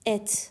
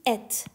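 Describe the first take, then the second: No difference in how they are said.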